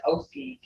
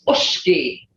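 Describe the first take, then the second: First: Oski with plain S, no "sh"; wrong English-style sound. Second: Ushki with a long hushing "sh"; correct Creek sound. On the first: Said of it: "there's no such word as". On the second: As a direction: say ushki slowly as "oosh-kee". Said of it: "in the Creek language". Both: Shown as a demonstration.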